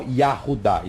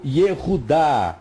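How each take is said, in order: First: Yahudá said with an open a after the Y; wrong Yahudá. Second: Yehudá said slowly with an e sound after the Y; correct Yehudá. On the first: Teacher contrasting the wrong form Yahudá for students. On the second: Teacher showing the class the right form Yehudá. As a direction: stretch out Yehudá with the e clearly heard. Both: Shown as a demonstration. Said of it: "não Yahudá".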